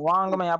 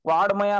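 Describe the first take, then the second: First: The middle consonant is a nasal 'ng' sound. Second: The middle consonant is a plain 'd' sound. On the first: The speaker calls it right. "वांगमय वांगमय आपण करतो ना" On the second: The speaker calls it wrong. "याचं उच्चारण चुकून ड असं करतात. वाडमय असं सुद्धा वाचतात काही काही जण, तर ते चुकीचं आहे"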